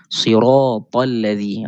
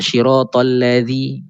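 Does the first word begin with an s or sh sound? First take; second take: s; sh. First: The first word begins with an s sound. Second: The first word begins with an sh sound. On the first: The speaker calls it right. "Tapi saya nak sebut huruf shad" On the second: The speaker calls it wrong. "ada yang membaca shi, shin"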